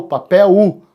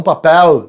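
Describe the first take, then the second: First: "papel" ending in a U sound, papéu. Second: "papel" with a clear final L, as the wrong way. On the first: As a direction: say "papel" with the final L as U. ("papel" com L final soando como U) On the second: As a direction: say "papel" ending in a hard L. ("papel" com L final bem marcado) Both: Shown as a demonstration. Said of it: "não papel".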